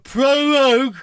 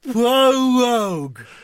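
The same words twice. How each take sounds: First: The word is said at normal speed. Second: The word is said slowly and deliberately.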